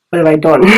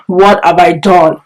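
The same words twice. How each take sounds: First: Said in the usual way. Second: Drawn-out giggly mock regret; laughing, slow. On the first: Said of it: "repeated with a laugh". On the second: Laughing at her own panic over the unanswered message. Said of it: "repeated slower, laughing".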